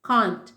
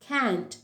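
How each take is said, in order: First: It is said in a British accent. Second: It is said in an American accent. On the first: "first நான் pronounce பண்ணுறது எல்லாமே British" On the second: "second பண்ணது American English"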